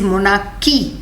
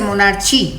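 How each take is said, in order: First: The middle consonant is a 'k' sound. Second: The middle consonant is a 'ch' sound. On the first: The speaker calls it right. "It is मोनार्की। एच is silent." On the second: The speaker calls it wrong. "Don't say मोनार्ची"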